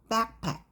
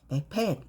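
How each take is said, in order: First: The stress is on the first syllable. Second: The stress is on the second syllable. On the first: The speaker calls it right. "앞에 주세요. backpack 이렇게 발음하면 되고요" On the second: The speaker calls it wrong. "강세를 백팩 이게 아니라 앞에 주세요"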